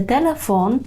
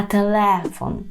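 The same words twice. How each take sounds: First: Телефон stressed on the final фон; stress on last syllable. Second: Телефон slowly, with a stretched, stressed ле. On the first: Teacher shows the wrong stress, on фон in телефон. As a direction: put the weight on фон in телефон. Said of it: "Не телефон". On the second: Teacher has learners repeat after her, stress on ле in телефон. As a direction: lean long on ле in телефон. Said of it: "наголос падає на склад ле". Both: Shown as a demonstration.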